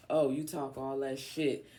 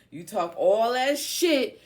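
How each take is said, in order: First: Said in the usual way. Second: High, drawn-out shouting; loud taunt. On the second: Acted. Calling out Leo while reading the cards, loud taunt.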